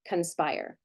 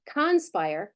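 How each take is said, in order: First: The first vowel is reduced to a schwa. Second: The first vowel is a full, clear vowel. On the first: The speaker calls it right. "we say conspire" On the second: The speaker calls it wrong. "we don't say conspire as much as"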